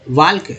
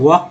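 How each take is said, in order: First: The L is pronounced before the K. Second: The L is silent, no L sound. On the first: The speaker calls it wrong. "एल के वाल्क नहीं" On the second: The speaker calls it right. "इसको वॉक पढ़ते। एल जो है silent है"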